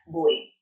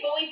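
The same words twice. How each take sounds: First: The name is said with a Vietnamese pronunciation. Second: The name is said with an English reading. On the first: This is the name's actual pronunciation. "but I think the pronunciation is like Bui" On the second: This is how most people read the name. "I say Bui for like, as in that's how I guess most people read it"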